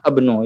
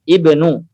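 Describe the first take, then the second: First: The word starts with an a vowel. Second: The word starts with an i vowel. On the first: The speaker calls it wrong. "Tidak mungkin kita baca dengan abnu" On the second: The speaker calls it right. "berikan harokat pada hamzahnya"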